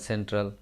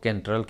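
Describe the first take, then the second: First: The word begins with an S sound. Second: The word begins with a K sound. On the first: The speaker calls it right. "सी E N T R L सेंट्रल" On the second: The speaker calls it wrong. "इसको केंट्रल क्यों नहीं बोलते हैं?"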